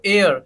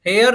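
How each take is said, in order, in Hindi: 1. शब्द एक स्वर ध्वनि से शुरू होता है। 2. शब्द एच की ध्वनि से शुरू होता है। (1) "क्या पढ़ेंगे इसको" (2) "हेयर नहीं"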